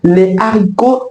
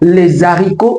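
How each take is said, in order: First: No linking sound joins article and noun. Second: A linking z sound joins article and noun. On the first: The speaker calls it right. "on dira tout simplement les haricots" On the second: The speaker calls it wrong. "On ne dira pas les haricots"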